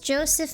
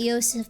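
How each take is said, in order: First: The name is said with a non-German pronunciation. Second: The name is said with a German pronunciation. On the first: "but it's Joseph" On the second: "if it was in Germany I would pronounce it Joseph"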